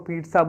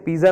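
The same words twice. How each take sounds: First: The word is said the formal standard way. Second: The word is said the casual everyday way. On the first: This is how it is properly said. The speaker calls it right. "इसको पिज्जा बोलते हैं" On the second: This is how most people say it informally. The speaker calls it wrong. "वैसे इसे पिज्जा नहीं बोलते हैं"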